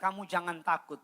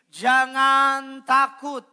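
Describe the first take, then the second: First: Said in the usual way. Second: High, loud scripture declaration; ringing, slow-ending preacher's call; loud proclamation. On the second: Real, not acted. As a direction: proclaim it to the whole congregation, drawn out at the end. Leads congregation in proclaiming the verse.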